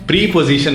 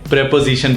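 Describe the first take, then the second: First: The first vowel is a long 'ee', like 'pree'. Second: The first vowel is a short 'e', like 'prep'. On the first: The speaker calls it wrong. "बोलने में हम प्री पोजीशन नहीं बोलते" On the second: The speaker calls it right. "प्रेपोजिशन बोला जाता है"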